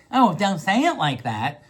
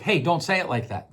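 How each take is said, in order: First: Hurt, put-on complaint with a lilting end; wounded tone. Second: Plain, even request falling at the end; matter-of-fact tone. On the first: Podcaster showing how tone changes the same words, wounded complaint. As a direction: stretch it out as a touchy, wounded protest. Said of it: "different tones". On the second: Podcaster showing the same words in another tone, matter-of-fact correction. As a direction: say it as a simple, firm correction. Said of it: "Those same words, different tones". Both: Shown as a demonstration.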